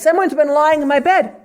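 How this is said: It is said in a high, shrill voice.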